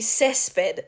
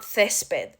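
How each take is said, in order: First: The first sound is a hissing 's'. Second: The first sound is a lisped 'th'. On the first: The speaker calls it right. "you would say césped" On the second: The speaker calls it wrong. "not césped"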